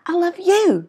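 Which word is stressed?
you. The stress is on the word you.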